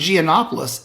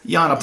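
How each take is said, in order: First: The name starts with a hard G sound. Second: The name starts with a Y sound. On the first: This is the Americanized form of the name. The speaker calls it wrong. "the Americanized, even Southern Americanized version" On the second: This is how the name is said in Greece. The speaker calls it right. "the G is not a hard G. It's yeah. a Y"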